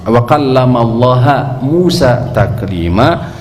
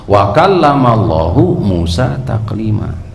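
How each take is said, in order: First: The name of God ends without a u vowel. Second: The name of God ends with a u vowel. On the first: God is the one spoken to by Moses. The speaker calls it wrong. "tidak ada yang membaca seperti ini kecuali seorang kafir" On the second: God is the one who spoke to Moses. The speaker calls it right. "dengan rofa pada lafdzul jalalah, domah maksudnya"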